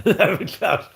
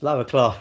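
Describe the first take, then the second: First: Laughing emphatic repeat. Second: Said in the usual way. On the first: Shown as a demonstration. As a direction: lower class again with a laugh, higher. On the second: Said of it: "I don't like peasants".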